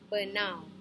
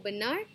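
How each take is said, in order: First: The word ends with an au sound. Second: The word ends with an r sound. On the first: "In Malacca, we change the pronunciation ... to uh, au" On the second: "a word that ends with R, for example, benar"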